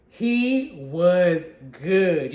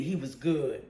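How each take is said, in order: First: Very slow, every word drawn out; slow savoring. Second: Said in the usual way. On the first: Real, not acted. Reviewer savoring praise for the villain, drawn out very slowly. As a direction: savor each word of He was good slowly. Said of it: "repeats praise, drawn out". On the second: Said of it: "repeats praise, first take".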